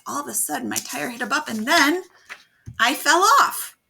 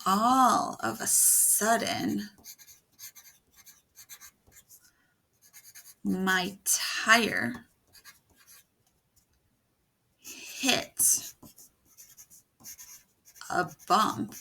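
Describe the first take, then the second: First: Rising to a loud, high "I fell off"; building suspense. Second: Slow, drawn-out suspense with long pauses; suspenseful reading. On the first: Teacher reads the whole sentence aloud, building to a loud climax. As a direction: build up and burst out on the fall. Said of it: "They add suspense". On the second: Teacher reads the new line aloud to build suspense. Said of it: "we could add suspense". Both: Shown as a demonstration.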